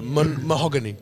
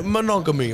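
First: Says "mahogany" instead of "monogamy"; mistaken word. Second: "monogamy" said correctly as mo-NOG-a-my; corrected word. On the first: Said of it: "not, not the wood". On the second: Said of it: "Sorry, not the wood". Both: Real, not acted.

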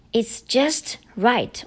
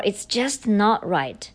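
First: It's "just" right, with "just" slow and weighted; slow, stressed "just". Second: "not" carries the weight and falls; falling stress on "not". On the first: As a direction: lean on "just" and let it fall. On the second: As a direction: lean on "not" in "It's just not right". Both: Shown as a demonstration. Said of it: "就 is to emphasize".

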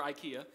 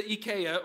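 First: Said in the usual way. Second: Ikea said ee-KAY-uh; Dutch pronunciation. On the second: Shown as a demonstration. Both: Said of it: "over there they pronounce it ikea".

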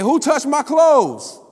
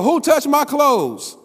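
First: High, slow, loud call across the crowd; Jesus calling out loud. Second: High, slow, loud yell; Jesus yelling. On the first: Jesus calls out to the thronging crowd, loud and slow. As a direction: call it out over the crowd, drawn out. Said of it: "He didn't say it quietly. It was over". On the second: Jesus yells to find who touched him, slow and loud. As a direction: yell it over a multitude. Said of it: "And Jesus had to yell". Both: Acted.

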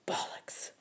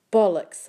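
First: Shaky unvoiced whisper; weak defiant whisper. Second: Fierce retort; loud defiant shout. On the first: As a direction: barely breathe the word. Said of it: "I whispered". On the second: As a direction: shout it back at them. Narrator shouts back. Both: A narrator's reading.

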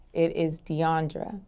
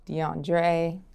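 First: "Deandra" said slowly as dee-AHN-druh; correct name pronunciation. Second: "Deandre" said dee-AHN-dray; mispronounced name. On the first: Interviewee corrects the mistakes people make, correct pronunciation. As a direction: end "Deandra" on uh, unhurried and softer. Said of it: "The correct way to pronounce my name". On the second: Interviewee lists what people wrongly call her, mispronounced name. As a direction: end "Deandre" on an ay sound. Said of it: "Do people mispronounce this?". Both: Shown as a demonstration.

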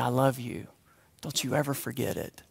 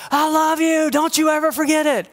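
First: Much softer, lower, hushed; tender whisper. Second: Higher, calling across the house; mock shout. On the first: Retold or imitated. Grandmother whispering to grandson beside him, tender and hushed. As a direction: whisper it close to the ear. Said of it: "whispering in my ear". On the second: Grandmother calling love across the house as they leave. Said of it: "could she have shouted".

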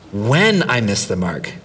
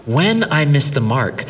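First: WHEN leaned on, said lower and falling; stress on when. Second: WHEN repeated with a bit more volume; stress on when. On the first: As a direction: hit the word WHEN, not if. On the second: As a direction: land on WHEN again. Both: Shown as a demonstration. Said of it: "hear me, I didn't say if".

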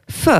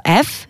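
First: F said like French "feu"; F with a rising eu after it; Albanian letter sound. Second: Said in the usual way. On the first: Shown as a demonstration. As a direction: say F as "feu", not "effe". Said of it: "comme le feu". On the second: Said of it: "ça se prononce".

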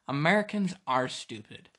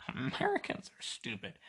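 First: Said in the usual way. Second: High, mocking voice of a foreigner; mock foreign listener. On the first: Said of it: "let's be honest here". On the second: Podcaster imitating a foreign listener sneering at Americans, high mock voice. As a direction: sneer it up high like a smug outsider. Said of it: "you're like".

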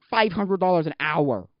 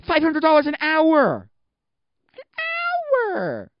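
First: Loud, drawn-out amazement; amazed. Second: High, drawn-out yell of disbelief; incredulous shout. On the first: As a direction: stretch out the price, louder and higher. First take, amazed at the rates. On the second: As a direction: build to a screeched, stretched-out HOUR. Escalating outburst at the rates. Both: Real, not acted.

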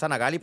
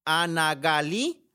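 First: "Gali" said as Gáli, stress on the first syllable, quick with a falling end; corrected stress on Gáli. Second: "Gali" said as Galí, stress on the last syllable, slow with a rising end; drawn out "Gali", stressing the final i; wrong stress on Galí. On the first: Correcting the listener's name, "Gali" stressed on GA. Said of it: "porque no tiene acento la I". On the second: Reading a listener's name off the message, stressing "Gali" on the final i. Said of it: "No, es Ana Gali porque no tiene acento la I". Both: Shown as a demonstration.

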